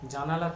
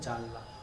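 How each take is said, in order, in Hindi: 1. n और l के बीच 'a' स्वर सुनाई देता है। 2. n और l के बीच कोई स्वर सुनाई नहीं देता।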